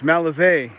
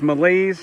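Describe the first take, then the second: First: The name is given a French-style pronunciation. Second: The name sounds like the English word malaise. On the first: "I believe it's Malazé. I assume that because he's French" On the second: "Be kind of funny if it's Malaise, just because of the English word that is pronounced that way"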